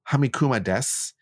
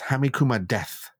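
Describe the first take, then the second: First: The last word ends with a clear 'su' sound. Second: The last word ends with a lisped 'th' sound. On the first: "instead of saying Hamikuma desu" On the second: "he says Hamikuma death"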